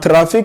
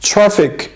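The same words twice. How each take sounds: First: The tr sound is said with a foreign accent. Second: The tr sound is said like natural English. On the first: The speaker calls it wrong. "not traffic" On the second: The speaker calls it right. "it's traffic. It's better to pronounce this word like traffic"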